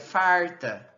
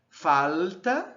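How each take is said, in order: First: The l becomes a retroflex r. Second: The l is a dark velar l. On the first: "e no R caipira" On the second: "como uma velar"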